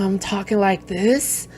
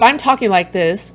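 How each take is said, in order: First: The voice is rough, low and gravelly. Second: The voice is plain and smooth.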